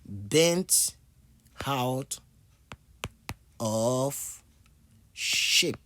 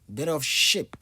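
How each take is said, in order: First: It is said slowly, with every word clear. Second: It is said quickly, with the words run together.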